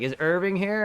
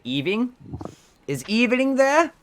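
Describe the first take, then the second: First: Said in the usual way. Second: Put-on high, slow Hispanic accent calling; mom's heavy Hispanic accent asking; thick Hispanic accent. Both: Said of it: "she has very thick Hispanic accent".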